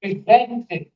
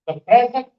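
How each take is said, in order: First: Verb "Presents", weight on ZENTS; pri-ZENTS, light first syllable, strong second; stress on second syllable. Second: Noun PRESENT, weight on PRE; PRE-zent, first syllable higher and stronger; stress on first syllable. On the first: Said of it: "it is articulated as present". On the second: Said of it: "principle presents it". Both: Shown as a demonstration.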